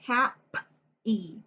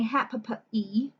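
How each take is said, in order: First: The P sound is said once. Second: The P sound is said twice. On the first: The speaker calls it right. "We say hap e. So the P's are going to go together" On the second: The speaker calls it wrong. "we don't say hap e"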